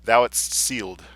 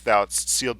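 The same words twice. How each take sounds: First: "Thou'dst sealed" slow and loud, every consonant sounded; emphatic, slowed "Thou'dst sealed"; careful cluster demonstration. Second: "thou'dst sealed" within the flow, consonants crowded together; "thou'dst sealed" at reading pace, cluster effortfully pronounced; difficult consonant cluster. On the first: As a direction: spell out the dst-s cluster in "Thou'dst sealed" slowly. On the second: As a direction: work through the dst-s cluster in "thou'dst sealed". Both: Shown as a demonstration. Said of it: "the difficulty with which I pronounced the consonantal cluster".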